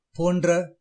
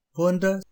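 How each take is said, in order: First: "போன்ற" as pon-dra, r sounded out; wrong pronunciation. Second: "போன்ற" with blended ன்ற, no separate r; correct pronunciation. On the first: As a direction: say "போன்ற" with hard d and rolled r. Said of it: "தவறான உச்சரிப்பு". (தவறான உச்சரிப்பு "போன்ற", போண்ட்ர என்று) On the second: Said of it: "சரியான உச்சரிப்பு". (சரியான உச்சரிப்பு "போன்ற", ர தனியாக இல்லாமல்) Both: Shown as a demonstration.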